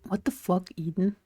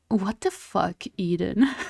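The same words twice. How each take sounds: First: It is read in a normal, plain voice. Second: It is read in a snooty, posh put-on voice.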